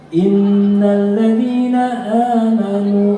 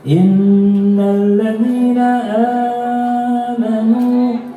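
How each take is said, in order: First: The long vowel in amanu is held two beats. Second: The long vowel in amanu is held four beats. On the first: "berarti dua" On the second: "berarti empat"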